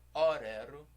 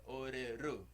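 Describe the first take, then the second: First: The stress falls before the last syllable. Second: The stress falls on the last syllable. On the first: The speaker calls it wrong. "não é orero" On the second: The speaker calls it right. "a sílaba forte é sempre a última"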